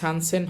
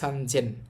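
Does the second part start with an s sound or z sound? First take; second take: s sound; z sound. First: The second part begins with an s sound. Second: The second part begins with a z sound. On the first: The speaker calls it wrong. "সানসেন হবে না" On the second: The speaker calls it right. "এটা হবে সানজেন"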